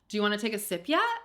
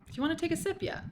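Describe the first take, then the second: First: It is said in an American accent. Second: It is said in a British accent. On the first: "how do Americans say it?" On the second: "I said that really British"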